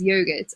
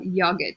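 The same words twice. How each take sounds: First: "yogurt" with a long o, YOH-gurt; long-o pronunciation. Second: "yogurt" with a short o, YOG-urt; short-o pronunciation. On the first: Teacher giving viewers their regional variant, long-o pronunciation. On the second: Teacher offering the other regional variant, short-o pronunciation. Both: Shown as a demonstration. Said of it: "depending on where you're from".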